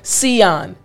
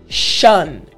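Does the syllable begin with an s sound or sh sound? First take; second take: s sound; sh sound. First: The syllable begins with a plain s sound. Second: The syllable begins with a sh sound. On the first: The speaker calls it wrong. "instead of it being sion or sion" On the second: The speaker calls it right. "it's actually shun"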